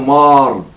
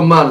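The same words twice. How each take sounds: First: The vowel is the kamatz sound. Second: The vowel is a short patach a sound. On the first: The speaker calls it right. "זה מר, מרי, בקמץ" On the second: The speaker calls it wrong. "ולא מר"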